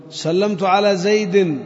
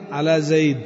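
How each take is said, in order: First: Slow "زيد" with its kasra tanween sounded; slow full reading. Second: "زيد" closed with a stop, no vowel; pausal form. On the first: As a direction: read slowly and sound the ending of "زيد". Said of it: "contrast with pausal take". (قراءة بطيئة مع تنوين "زيد") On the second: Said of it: "pausal take". ("زيد" بالسكون في الوقف) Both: Shown as a demonstration.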